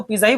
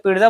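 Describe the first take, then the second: First: "पिज्जा" as pee-za, plain z; everyday pronunciation. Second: "पिज्जा" with a t, PIT-za; correct pronunciation. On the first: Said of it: "पिज्जा को पिज्जा ही बोलते हैं". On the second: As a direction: add t before the z in "पिज्जा". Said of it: "बोलने कौन जाएगा". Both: Shown as a demonstration.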